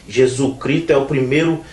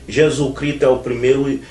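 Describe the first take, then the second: The two takes are said the same way.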